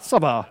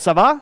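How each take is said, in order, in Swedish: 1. Tonhöjden går neråt på slutet. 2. Tonhöjden går uppåt på slutet. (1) "Går det neråt så är det ett svar" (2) "Går det uppåt på slutet så är det en fråga"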